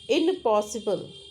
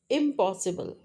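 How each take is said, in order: First: The nasal before p is an n sound. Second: The nasal before p is an m sound. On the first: "alveolar N" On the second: "changes to bilabial M"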